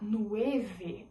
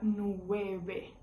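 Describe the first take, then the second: First: The middle consonant is a v sound. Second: The middle consonant is a b sound. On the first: The speaker calls it wrong. "Ao invés de a gente falar" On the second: The speaker calls it right. "a gente fala nueve, porque os hispanohablantes têm essa dificuldade de pronunciar essa letrinha V"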